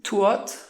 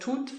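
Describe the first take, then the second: First: The vowel is a gliding diphthong. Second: The vowel is a single steady vowel. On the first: This is the older, Swiss-like pronunciation. "so you have like tuot instead of tut" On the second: This is the modern pronunciation. "instead of tut"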